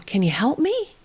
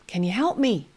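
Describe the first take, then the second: First: High, questioning invitation; inviting, inquisitive. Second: Said in the usual way. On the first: Shown as a demonstration. Therapist asking a toddler for help, inviting tone. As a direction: invite him in gently. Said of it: "my voice is inviting, it's inquisitive". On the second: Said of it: "I kind of anticipate".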